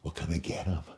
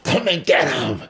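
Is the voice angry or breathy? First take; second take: breathy; angry. First: It is said low, breathy and sexy. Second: It is said with wild, furious rage.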